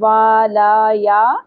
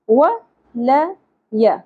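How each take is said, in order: First: Each vowel is drawn out long. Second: Each vowel is kept short. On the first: The speaker calls it wrong. "اس طرح سے نہیں پڑھیں گے" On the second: The speaker calls it right. "کیسے پڑھیں گے؟"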